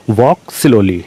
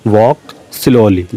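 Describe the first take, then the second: First: Said in the usual way. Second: Drawn out word by word, very slowly; slow dictation. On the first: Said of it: "first take at normal speed". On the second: Shown as a demonstration. Teacher repeating the English phrase for learners, very slow. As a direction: say it again very slowly for the class. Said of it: "repeated very slowly for dictation".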